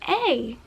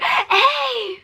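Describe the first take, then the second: First: It is said in a calm, low-key way. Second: It is said with exaggerated, over-the-top energy.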